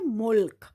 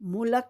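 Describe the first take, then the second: First: The final l and k are joined directly. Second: An extra vowel separates the final l and k. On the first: The speaker calls it right. "क्या पढ़ेंगे, मुल्क" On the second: The speaker calls it wrong. "मुलक नहीं पढ़ेंगे"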